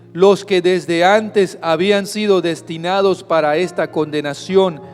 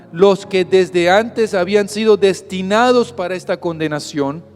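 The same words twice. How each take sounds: The two takes are said the same way.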